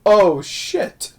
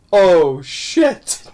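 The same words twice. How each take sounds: First: A higher put-on Oh, shit; imitating Mrs Doubtfire's dismay. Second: A dismayed Oh, shit in a put-on voice; quoting the film's dismayed curse in a character voice; imitating Mrs Doubtfire's dismay. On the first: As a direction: replay his dismayed reaction with a higher voice. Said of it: "he's like". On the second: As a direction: mimic his dismay as the mask is crushed. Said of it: "and he's like".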